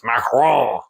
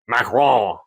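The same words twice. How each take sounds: First: The word is said with more emphasis. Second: The word is said plainly, without extra emphasis. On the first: The speaker calls it right. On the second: The speaker calls it wrong.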